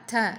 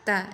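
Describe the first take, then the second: First: The t has a heavy puff of breath after it. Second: The t has a slight puff of breath after it. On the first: The speaker calls it wrong. "Tapi jangan berlebihan juga" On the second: The speaker calls it right. "Tapi sedikit diberi hamz ta"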